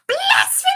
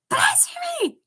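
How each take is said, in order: First: It is said in a squeaky hamster voice. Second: It is said in an ordinary voice.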